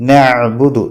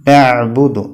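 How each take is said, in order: Both takes have the same delivery.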